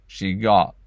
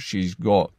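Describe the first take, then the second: First: The vowel in 'got' sounds like 'aw'. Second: The vowel in 'got' sounds like 'oh'. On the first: "a more southern aw" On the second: "the short O, aw, I would turn into an O"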